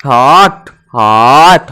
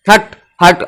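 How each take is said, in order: First: हट drawn out as "haw-awt"; leisurely, stretched vowel. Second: Said in the usual way. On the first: Shown as a demonstration. Teacher reading at ease to expose the vowel, हट as long "haawt". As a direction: linger low on the aw in हट before closing the t. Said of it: "आराम से पढ़ोगे तो ह और बीच में आएगा अ". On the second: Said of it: "आप जब पढ़ोगे हट".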